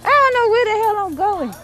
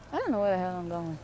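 First: High-pitched, exasperated wail; lost wail. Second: Fast, soft and lower aside; quiet muttering. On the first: Lost, wails it first time. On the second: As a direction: mutter it quickly to yourself. Lost, says it again low. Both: Real, not acted.

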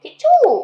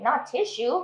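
First: "tissue" said tit-chu, high and loud; Thai pronunciation. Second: English tissue, not the Thai way; wrong pronunciation. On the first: Teacher showing the Thai way to say "tissue". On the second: Teacher showing the wrong way to say "tissue". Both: Shown as a demonstration.

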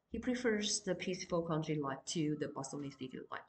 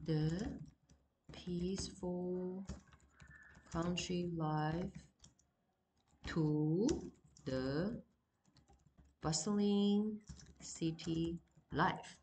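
First: Said in the usual way. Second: Word by word with long pauses, slow; slow, spaced classroom dictation. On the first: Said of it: "Okay, so he prefers". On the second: Shown as a demonstration. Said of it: "就是he".

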